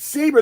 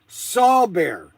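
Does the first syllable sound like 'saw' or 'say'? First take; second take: say; saw. First: The first syllable sounds like 'say'. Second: The first syllable sounds like 'saw'. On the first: The speaker calls it right. "It's saber. There's no W in that name" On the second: The speaker calls it wrong. "the correct way to say it is saw bear"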